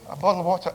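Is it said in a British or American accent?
British. It is said in a British accent.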